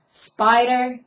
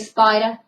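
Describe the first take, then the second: First: The word ends with a plain 'er' sound. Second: The 'er' ending is dropped for an 'ah' sound.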